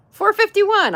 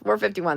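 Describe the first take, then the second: First: Much higher, louder number; much higher excited cheer at the number; excited count. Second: Said in the usual way. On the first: Real, not acted. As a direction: announce it with glee. Excited read of sub count.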